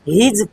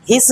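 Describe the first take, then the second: First: The word ends with a z sound. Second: The word ends with an s sound. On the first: The speaker calls it right. "हीज पढ़ते हैं" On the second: The speaker calls it wrong. "हिस नहीं"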